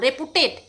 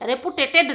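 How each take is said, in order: First: The word is said with three syllables. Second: The word is said with four syllables. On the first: The speaker calls it right. "রেপুটেড হবে" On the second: The speaker calls it wrong. "ওটা রেপুটেটেড হবে না"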